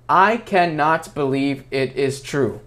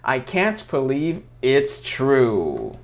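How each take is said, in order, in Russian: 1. Каждое слово произносится полностью, без сокращений. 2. Слова сокращаются до более коротких форм. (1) "Никто так не говорит" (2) "Скорее мы говорим I can't"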